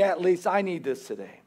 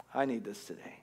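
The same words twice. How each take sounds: First: Said in the usual way. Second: Whispered. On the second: Shown as a demonstration. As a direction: whisper it, close and private.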